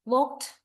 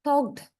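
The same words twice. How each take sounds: First: "walked" ending in a crisp t, "wawkt"; final t sound. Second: "talked" ending in a voiced d, "tawkd"; final d sound. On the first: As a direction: say "walked" as one syllable with a t at the end. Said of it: "this E D is pronounced mostly as t sound". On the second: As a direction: say "talked" as one syllable with a d at the end. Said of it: "E D is pronounced as the". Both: Shown as a demonstration.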